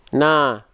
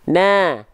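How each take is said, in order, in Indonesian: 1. Vokalnya terdengar penuh, bibir terbuka tanpa melebar. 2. Vokalnya terdengar tipis, bibir melebar seperti senyum. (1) "Itu buka mulut tanpa senyum. Kedengarannya kurang tipis" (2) "harusnya sambil senyum sedikit"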